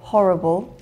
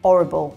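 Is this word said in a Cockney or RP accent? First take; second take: RP; Cockney. First: It is said in an RP accent, with the h. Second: It is said in a Cockney accent, without the h. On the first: "with R P, we would say" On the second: "in Cockney, it would be ... there's no H"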